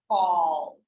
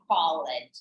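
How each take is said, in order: First: The ending joins the word as one syllable. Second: The ending is said as a separate syllable. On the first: The speaker calls it right. "so called" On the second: The speaker calls it wrong. "try not to put together E, D ... call it's not correct"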